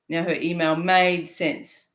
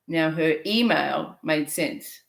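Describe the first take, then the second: First: The stress falls on the word made. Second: The stress falls on the word email.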